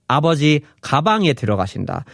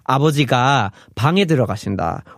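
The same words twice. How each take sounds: First: "아버지", then "가방에 들어가신다" run together; pause after 아버지. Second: "아버지가", then "방에 들어가신다" run together; pause after 아버지가. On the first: Teacher showing the pause falls after "아버지". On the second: Teacher showing the pause falls after "아버지가". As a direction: split it as "아버지가 / 방에". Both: Shown as a demonstration. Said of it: "split up that pausing in a different way".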